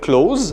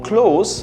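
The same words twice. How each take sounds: First: The word ends with a buzzing z sound. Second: The word ends with a hissing s sound. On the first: It means to shut something. "close with a Z" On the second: It means near. "near or close with an S"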